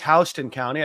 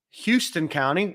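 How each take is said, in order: First: "Houston" said HOUSE-tun, rhyming with "house"; Houston pronounced House-ton. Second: "Houston" said HYOO-stun, like the Texas city; Houston pronounced Hyoo-ston. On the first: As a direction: correct yourself: "Houston" starts like "house". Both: Shown as a demonstration. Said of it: "I think I mispronounced that".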